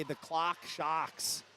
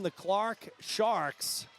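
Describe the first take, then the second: First: R-less New England accent, drawn out slowly. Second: "Clark Sharks" with both R's clearly sounded; careful R's. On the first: Shown as a demonstration. Commentator showing listeners their usual way, New England accent. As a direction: drop the R's like a thick New Englander. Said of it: "my bad New England accent". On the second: Real, not acted. Commentator naming a relay team, "Clark Sharks" with careful R's. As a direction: slowly pronounce the R in "Clark" and in "Sharks". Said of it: "trying to use my R's here".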